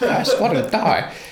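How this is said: It is said in a put-on voice for Job's wife.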